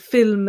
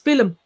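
First: It is pronounced the standard English way. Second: It is pronounced the Irish English way. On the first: "instead of saying film" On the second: "They pronounce English words as if they're Irish words"

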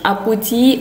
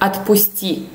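First: Sounds are dropped, giving a childlike cute form. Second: All sounds are pronounced in the full form. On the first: The speaker calls it wrong. "writing the wrong but cute pronunciation" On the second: The speaker calls it right. "actually is the word"

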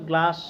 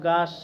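First: The l sound is pronounced after the g. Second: The l sound is dropped after the g. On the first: This is the original form of the word. "মূল শব্দ গ্লাস" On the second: Small children say it this way because it is easier. "ছোটো বাবুরা অনেকে বলবে গাস, ল উচ্চারণ করতে পারবে না"

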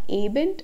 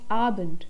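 First: The first vowel is not an open 'ah'. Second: The first vowel is an open 'ah'. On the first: The speaker calls it wrong. "It's not abend" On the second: The speaker calls it right. "it's abend"

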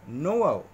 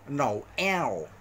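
First: The name ends with an 'oh' sound. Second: The name ends with a clear 'el' sound. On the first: The speaker calls it right. "E L 就偶然的偶啊，是Noel" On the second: The speaker calls it wrong. "我们马来西亚人看到这个名字，一定念Noel 嘛"

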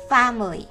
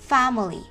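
No difference in how they are said.

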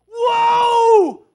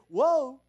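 First: The word is shouted loudly and urgently. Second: The word is said softly and calmly. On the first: The speaker calls it right. "if you saw your kid running out in the street, you go, woe! Wait a minute" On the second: The speaker calls it wrong. "you wouldn't say, woe. No"

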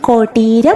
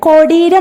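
First: The middle consonant is a hard retroflex t. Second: The middle consonant is not a hard retroflex t. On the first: The speaker calls it right. "അത് ടായാക്കി ഒന്ന് ഉച്ചരിച്ചാൽ മതി" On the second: The speaker calls it wrong. "എപ്പോഴും ഉച്ചരിക്കുന്നുണ്ടാവുക"

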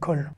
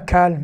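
First: The vowel is a rounded 'oh' sound. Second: The vowel is an open 'ah' sound. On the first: The speaker calls it right. "mais kol" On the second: The speaker calls it wrong. "qui se lit pas kal"

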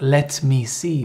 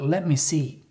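First: The words 'let me' are said fully and separately. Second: The words 'let me' blend into one short word. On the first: The speaker calls it wrong. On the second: The speaker calls it right.

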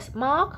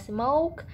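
First: The vowel is a short, flat 'o' sound. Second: The vowel glides as a long 'oh' sound. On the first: The speaker calls it wrong. "không phải là smoke" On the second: The speaker calls it right. "mà là smoke"

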